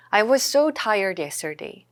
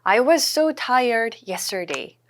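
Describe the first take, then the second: First: Slow, smoother second take; slow repeat. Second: Very slow, every word laid out; slow model sentence. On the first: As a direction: say it again a bit more connected. (천천히 한 번 더) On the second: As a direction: spell it out slowly for learners. (아주 천천히 또박또박) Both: Shown as a demonstration. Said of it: "I was죠".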